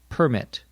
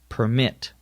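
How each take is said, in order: First: The stress is on the first syllable. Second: The stress is on the second syllable.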